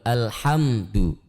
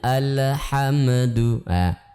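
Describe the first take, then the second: First: The word ends smoothly with no echo sound. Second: The word ends with an added bouncing 'ah' sound. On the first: The speaker calls it right. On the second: The speaker calls it wrong.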